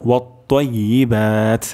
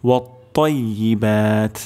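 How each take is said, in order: No difference in how they are said.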